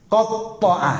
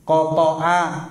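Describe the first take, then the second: First: "Kotoa" pitched higher, with the middle doubled; "Kotoa" stressed, with a held t; "Kotoa" in its intensive form for chop; qatta'a meaning chop. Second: "Kotoa" said short and level; "Kotoa" falling, with a plain middle; "Kotoa" in its simple form for cut; qata'a meaning cut. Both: Shown as a demonstration.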